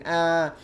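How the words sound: The scream sounds playful, as if smiling.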